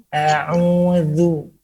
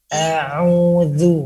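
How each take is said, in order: No difference in how they are said.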